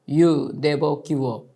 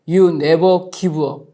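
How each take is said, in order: First: It is said in a very quiet voice. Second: It is said in the loudest voice. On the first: "아주 작은 목소리로 이렇게" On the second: "다시 더 큰 소리로"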